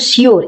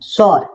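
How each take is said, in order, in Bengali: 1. শব্দটি 'shoo-er' এর মতো উচ্চারিত হয়, দুই সিলেবলে। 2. শব্দটি 'shore' এর মতো উচ্চারিত হয়, এক সিলেবলে। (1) "শিওর এটা সঠিক উচ্চারণ নয়" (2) "এর সঠিক উচ্চারণ হচ্ছে সর"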